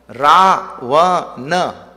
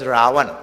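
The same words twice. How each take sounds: First: Ravana loud and slow, in three separate beats; syllable by syllable. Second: Said in the usual way. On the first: Shown as a demonstration. Teacher counting the evil force's syllables, Ravana loud and broken in three. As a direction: boom out Ravana one syllable at a time.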